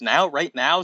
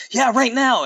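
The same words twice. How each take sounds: First: "Now? Right now?" with a rising question tune. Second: High, emphatic cartoon yell; mock yell. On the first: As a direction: ask "Right now?" surprised, rising at the end. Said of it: "with a questioning voice". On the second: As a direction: insist eagerly at a raised pitch. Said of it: "Amy yelled". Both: A narrator's reading.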